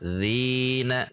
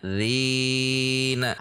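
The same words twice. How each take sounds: First: The long vowel lasts exactly two counts. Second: The long vowel is stretched beyond two counts. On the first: The speaker calls it right. "Harusnya dzina" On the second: The speaker calls it wrong. "jika lebih dari satu ayunan maka itu menjadi lahan"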